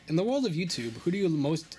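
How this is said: It is said in a Papyrus impression voice.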